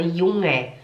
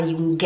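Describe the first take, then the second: First: Junge with throat ng and no G; soft NG. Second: Junge with a clear G before the E; hard G. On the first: Teacher shows what is said, Junge with soft NG. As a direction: glide from ng to E in Junge. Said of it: "a gente fala". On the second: Teacher shows what isn't said, Junge with hard G. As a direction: pronounce "Jun-gue" with popped G. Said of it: "A gente não fala". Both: Shown as a demonstration.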